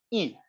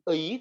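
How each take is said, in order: First: The vowel is said as a plain 'i'. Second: The vowel is said as a two-part 'ei'. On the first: The speaker calls it right. "tapi i" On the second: The speaker calls it wrong. "dibacanya bukan ei"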